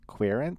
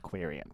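First: The word is said with two syllables. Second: The word is said with three syllables. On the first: This is probably the standard pronunciation. "I think it might actually be pronounced queerent" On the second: This is the speaker's own habitual pronunciation. "I will always pronounce it queerient"

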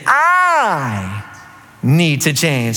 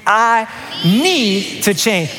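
First: The stress is on the word I. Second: The stress is on the word need.

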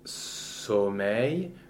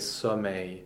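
First: The first vowel is a closed o. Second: The first vowel is an open o. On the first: The speaker calls it wrong. "we will not say sommeil" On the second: The speaker calls it right. "it will tend to open that vowel"

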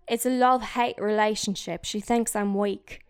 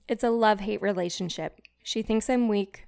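First: It is read in a British accent. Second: It is read in the speaker's normal accent.

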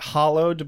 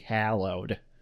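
First: The first vowel sounds like the one in 'hollow'. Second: The first vowel sounds like the one in 'hallow'. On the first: "it's totally legit to pronounce it hollowed, but I think that would be more of a British pronunciation" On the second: "Since we're Americans, we have to say hallowed"

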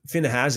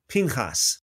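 First: The name is said with an English pronunciation. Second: The name is said with a Hebrew pronunciation.

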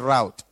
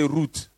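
First: The word is said in an American way. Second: The word is said in a non-American way. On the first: "The Americans say route" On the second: "we say route"

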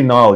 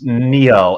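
First: One syllable that sounds like the river Nile. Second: One syllable with an 'ee' vowel, like 'Neil'. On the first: The speaker calls it wrong. "you're confusing me with the well-known Egyptian river" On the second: The speaker calls it right. "it's Neil"

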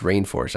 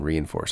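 First: The name starts with the sound 'rain'. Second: The name starts with the sound 'ree-in'. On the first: The speaker calls it right. "I think it's Rainforce" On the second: The speaker calls it wrong. "rather than Reinforce"

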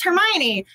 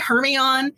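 First: The name is said as in the films. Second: The name is said as a reader's guess. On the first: This is how it is said in the films. The speaker calls it right. "you hear them say it in the movie, like, oh, it's Hermione" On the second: This is how readers said it before hearing it. The speaker calls it wrong. "before the Harry Potter movies, it used to be Hermione"

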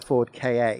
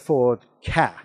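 First: Ka is spelled out as two letters. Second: Ka is said as one word. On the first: The speaker calls it wrong. "It's not the Ford Ka" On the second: The speaker calls it right. "you read it as a word. Which is why it's the Ford Ka"

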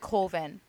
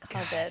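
First: The title is said sounding like 'Colvin'. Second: The title is said sounding like 'Coven'. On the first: This is how the filmmakers say it. The speaker calls it wrong. "They Pronounce it Colvin" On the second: This is the standard way to say it. The speaker calls it right. "Correctly pronounced Coven"

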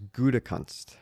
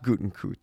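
First: No N sound follows the first syllable. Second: An N sound follows the first syllable. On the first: The speaker calls it right. "It is Gutekunst" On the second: The speaker calls it wrong. "It is not Gutenkunst"

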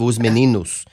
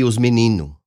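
First: The final s sound is pronounced. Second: The final s sound is dropped. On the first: "Instead of os meninos" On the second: "a lot of times the plural markers are dropped"

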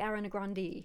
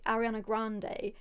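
First: The surname ends with an 'ee' sound. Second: The surname ends with an 'ay' sound. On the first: This is how the person herself says the name. The speaker calls it right. "her name is actually [name]" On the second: This is the common way people say the name. The speaker calls it wrong.

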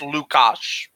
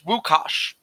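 First: The name begins with an L sound. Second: The name begins with a W sound. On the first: This is how it is said in parts of Poland or Russia. "in some sections of Poland or in Russia" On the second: This is how it is said elsewhere in Poland. "With a W sound"

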